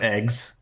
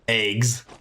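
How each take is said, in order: First: Eggs is said with a standard-sounding vowel. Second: Eggs is said with a Texan-sounding vowel. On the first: This is how others usually say it. "instead of eggs" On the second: This is how the speaker personally says it. "I say like eggs ... Maybe that's the Texan in me"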